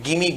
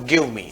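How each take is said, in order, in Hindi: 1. दोनों शब्द मिलकर एक छोटा शब्द बन जाते हैं। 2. दोनों शब्द पूरे और अलग-अलग बोले जाते हैं। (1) "उसको इंग्लिश में हमें गिमी बोलना है।" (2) "आप बोलते हो गिव मी"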